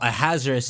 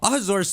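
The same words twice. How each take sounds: First: The name is said in an English way. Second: The name is said in a Japanese-like way. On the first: "is when they say it in English" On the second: "does sound like what it would be called in Japanese"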